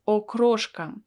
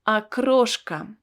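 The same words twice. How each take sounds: First: The first vowel sounds like 'o'. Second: The first vowel sounds like 'a'. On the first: The speaker calls it wrong. "I don't pronounce it as окрошка because the first letter O is not stressed" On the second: The speaker calls it right. "that is why I pronounce it as A"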